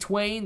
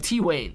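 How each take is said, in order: First: The name is said as one syllable. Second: The name is said as two syllables. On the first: The speaker calls it wrong. "not Twain" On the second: The speaker calls it right. "T Wayne, not Twain"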